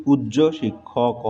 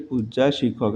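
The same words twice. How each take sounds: First: পূজ্য ending in a rounded o; corrected form demo. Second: পূজ্যা ending in an open aa; wrong form demo. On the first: Teacher gives students the corrected phrase, পূজ্য ending in o. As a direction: say পূজ্য with o as its last vowel, unhurried. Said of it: "উচ্চারণ হবে কি?". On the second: Teacher repeats the mistake before correcting it, পূজ্যা ending in aa. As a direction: say পূজ্যা with aa as its last vowel. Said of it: "এটা ভুল". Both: Shown as a demonstration.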